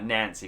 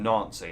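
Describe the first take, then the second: First: The name is said clearly as Nancy. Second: The name sounds much like the word Nazi. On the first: The speaker calls it right. "I've got to say it like that" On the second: The speaker calls it wrong. "it sounds like I'm talking about evil Germans"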